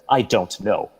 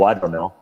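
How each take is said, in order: First: Every syllable is pronounced clearly and separately. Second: The words are blended and slurred together.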